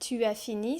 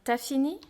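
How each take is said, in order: First: The vowel of tu is fully pronounced. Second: The vowel of tu is dropped.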